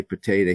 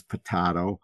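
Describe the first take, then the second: First: Potato said as po-TAY-to, long ay vowel. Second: Potato said as po-TAH-toe, broad ah vowel. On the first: One believer's way of saying it: potato as po-TAY-to. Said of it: "you say potato". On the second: The other believer's way: potato as po-TAH-toe. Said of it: "he says potato". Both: Shown as a demonstration.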